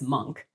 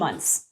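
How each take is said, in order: First: The name ends with a hard k sound. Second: The name ends with a ts sound. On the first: The speaker calls it wrong. "the most common and inaccurate pronunciation" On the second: The speaker calls it right. "it's actually Muntz, like M U N T Z"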